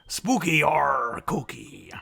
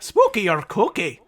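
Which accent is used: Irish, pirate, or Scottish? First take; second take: pirate; Irish. First: It is said in a pirate-style accent. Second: It is said in an Irish accent. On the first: "Was that a pirate?" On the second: "I can do it in Irish here"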